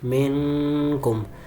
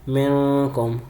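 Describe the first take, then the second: First: The n sound is stretched out long. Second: The n sound is nasalized through the nose. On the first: The speaker calls it wrong. "इसको मैंने जो है वो खींचा था" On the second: The speaker calls it right. "गुन्ना करना है, खींचना नहीं है, नाक में आवाज़ भी लेके जानी है"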